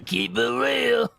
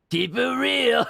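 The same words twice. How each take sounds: First: Slow hammed-up goblin New Yorker; bad New York accent. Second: Higher mock New Yorker drawl; bad New York accent. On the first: Streamer mimicking the goblin's bad New York accent. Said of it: "goblins should sound like bad New Yorkers". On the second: Streamer mimicking the goblin in a bad New York accent. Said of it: "This is a bad accent".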